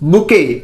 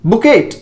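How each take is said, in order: First: It ends on a vowel with no t. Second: It ends with a clear t sound. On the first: The speaker calls it right. "यह है आपका बुके" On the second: The speaker calls it wrong. "अगर आप ऐसे बोल रहे हैं तो इट इज आल्सो रॉन्ग"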